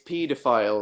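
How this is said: It is said with the British pronunciation. "I'm from England. It's pedophile because we're weird"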